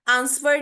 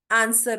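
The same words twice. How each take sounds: First: आंसर as ans-wer, w sounded; wrong pronunciation. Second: आंसर as aan-sar, no w; silent w. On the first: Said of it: "आंसर नहीं होता". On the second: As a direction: drop the w in आंसर. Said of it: "आंसर होता है". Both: Shown as a demonstration.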